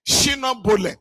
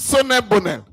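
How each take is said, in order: First: The name is said with local sounds, like 'Shino Bole'. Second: The name is said as 'Sonne Bonnet'. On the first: This is how local people said the name. The speaker calls it wrong. "they call them Shino Bole" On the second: This is the company's actual name. The speaker calls it right. "the name is Sonne Bonnet"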